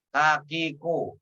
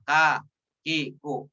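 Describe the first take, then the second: First: The syllables are run together quickly without breaks. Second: The syllables are said slowly with breaks between them. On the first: "ketika sudah disambung, baca lebih cepat" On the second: "Jika tadi ka, ki, ku dibaca ka, ki, ku"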